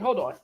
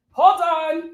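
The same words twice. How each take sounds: First: Said in the usual way. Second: Louder, higher call. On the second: Real, not acted.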